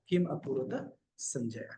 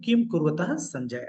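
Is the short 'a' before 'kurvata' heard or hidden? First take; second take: heard; hidden. First: The words are split, with a clear 'a' sound. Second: The words run together and the 'a' disappears. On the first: "संधि विच्छेद करते हैं तो किम अकुर्वत है" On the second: "जब एक साथ पढ़ेंगे तो ... ऐसे बोलेंगे तो अ उसके अंदर छिप जाएगा"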